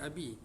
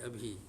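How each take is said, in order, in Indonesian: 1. Bunyi b-nya biasa, tanpa h yang berdesah. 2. Bunyi b-nya diikuti h yang berdesah. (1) "dia bukan abi" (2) "dia ada ha sikit, jadi abi"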